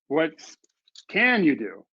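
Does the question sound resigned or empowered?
empowered. It sounds like a genuine, empowered question. It asks which actions are possible. "suddenly is empowering"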